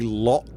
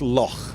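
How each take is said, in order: First: The word ends in a hard K sound. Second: The word ends in a throaty, rasping sound. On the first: The speaker calls it wrong. "They don't say Loch Ness" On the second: The speaker calls it right. "a cross between lock and and a snort"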